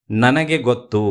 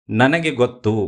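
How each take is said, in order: Both takes have the same delivery.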